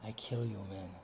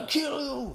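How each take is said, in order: First: It is said softly, like talking to a woman. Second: It is said in a predictable, menacing tone.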